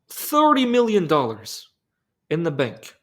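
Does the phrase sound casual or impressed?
impressed. It sounds impressed, as if it were huge. Having the money is a big deal. The speaker calls it wrong. "I said that wrong"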